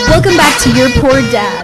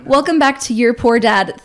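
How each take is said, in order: First: It is said very loudly. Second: It is said more quietly.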